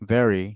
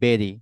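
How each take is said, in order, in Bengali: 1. এটা ইংরেজ স্থানীয় উচ্চারণে বলা হয়। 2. এটা বাংলাদেশি উচ্চারণে বলা হয়। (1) "it's gonna be very" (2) "আমরা বলি কি ভেরি, it's not the very"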